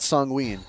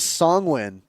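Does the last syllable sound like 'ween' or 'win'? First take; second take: ween; win. First: The last syllable has a long 'ween' vowel. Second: The last syllable has a short 'win' vowel. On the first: The speaker calls it wrong. "not Songween" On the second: The speaker calls it right. "it is Songwin"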